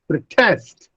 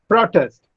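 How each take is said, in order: First: The stress is on the second syllable. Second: The stress is on the first syllable. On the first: It is used as a verb. "if I shift the stress on the second syllable, it becomes a verb" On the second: It is used as a noun. "it is used as a noun if I put a stress on the first syllable"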